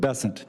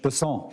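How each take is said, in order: First: The name is pronounced the English way. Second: The name is pronounced the French way. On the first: "as opposed to Besant. That's what those folks in South Carolina do" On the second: "I'm going to pronounce it with a French Besson"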